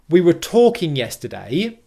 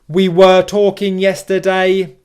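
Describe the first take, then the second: First: Some words are weak and others are stressed. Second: Every syllable gets the same flat stress. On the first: The speaker calls it right. "instead of saying" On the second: The speaker calls it wrong. "stress every syllable in English evenly, ... very flat ... like a robot"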